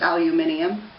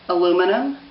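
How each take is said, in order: First: The word is said in a goofy alternate form. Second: The word is said in its everyday form.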